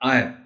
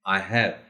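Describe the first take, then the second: First: It is said as one contracted form. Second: It is said as two full separate words. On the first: "इसको पढ़ा जाएगा" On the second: "अगर full दो words हैं यानी आई और हैव"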